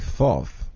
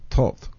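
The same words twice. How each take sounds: First: The name is said the usual English way. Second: The name is said the presumed Egyptian way. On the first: This is how English speakers say the name. "we English speakers say Thoth" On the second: This is how the Egyptians supposedly said the name. "I think they pronounce it Thoth"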